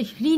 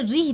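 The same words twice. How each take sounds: First: ह्री as "hri", h ahead of the r; wrong reading. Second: री as "rih", r sounded first; correct reading. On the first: Teacher repeating the rule for learners, wrong reading. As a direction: put the h first in ह्री. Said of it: "ह्री नहीं पढ़ना है". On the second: Teacher repeating the rule for learners, correct reading. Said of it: "उसे री पढ़ना है". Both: Shown as a demonstration.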